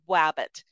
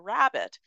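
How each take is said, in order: First: The first sound is a W, not R. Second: The first sound is a clear R. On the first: A young child has not yet learned the R sound. The speaker calls it wrong. "I always say wabbit" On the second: The sound is produced correctly. The speaker calls it right. "let's try to say rabbit and with the rrr"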